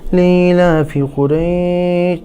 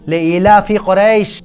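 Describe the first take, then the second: First: It is read lightly and casually, without force. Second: It is read forcefully, with weight and feeling. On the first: The speaker calls it wrong. "ऐसे नहीं कि" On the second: The speaker calls it right. "ज़ोर से और ज़ोर लगा के महसूस करके पढ़ना है"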